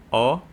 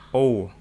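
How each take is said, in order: First: O said with a wide mouth, as in A; wide-open "O". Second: O with lips slightly tight, pushed louder; close, rounded "O"; bassy rounded O. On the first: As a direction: say "O" open and wide, without rounding tight. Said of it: "Kalau ini O". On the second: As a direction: say "O" narrow-mouthed and bassy. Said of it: "biar ngebas". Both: Shown as a demonstration.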